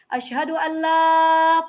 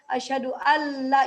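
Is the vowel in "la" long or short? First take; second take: long; short. First: The vowel in la is held long. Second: The vowel in la is cut short. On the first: It means there is no. The speaker calls it right. "panjang artinya tidak ada" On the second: The declaration becomes invalid. The speaker calls it wrong. "Kalau la-nya pendek, syahadat kita salah"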